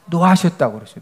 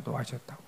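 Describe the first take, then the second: First: Said in the usual way. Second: 노하셨다고 repeated far softer, almost under the breath; a soft murmured repeat of 노하셨다고; soft echo. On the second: Shown as a demonstration. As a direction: echo 노하셨다고 quietly to yourself. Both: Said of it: "뭐 하셨다고 그랬어요?".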